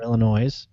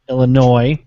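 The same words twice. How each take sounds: First: The final s is pronounced. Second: The final s is silent. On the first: The way outsiders say it to annoy locals. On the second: The usual local way of saying it.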